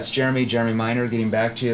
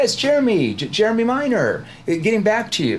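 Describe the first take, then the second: First: It is said fast without pauses between names. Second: It is said slowly with pauses between names.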